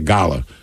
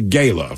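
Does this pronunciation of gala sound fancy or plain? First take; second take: fancy; plain. First: The word is said in a fancy, upscale way. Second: The word is said in a plain, everyday way. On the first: Upscale people who attend such events say it this way. "For people that go to galas, it's a gala" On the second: The speaker's own ordinary crowd says it this way. "For us, it's a gala"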